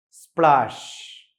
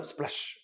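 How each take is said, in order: First: "splash" slow, with a long aa and sh; imitated splash. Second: Said in the usual way. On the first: Shown as a demonstration. Teacher imitating a fall into water, drawn-out "splash". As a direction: stretch "splash" like something hitting water. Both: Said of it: "വെള്ളത്തിൽ വീഴുമ്പോൾ ഉള്ള ശബ്ദം".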